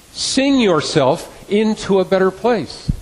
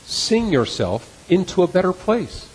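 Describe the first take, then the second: No difference in how they are said.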